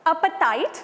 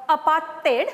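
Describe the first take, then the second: First: Said in the usual way. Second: "apartheid" ending in "tate", not "tight"; "apartheid" with a long "ay" in its last syllable; South African pronunciation. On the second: Shown as a demonstration. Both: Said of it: "as the South Africans pronounce it".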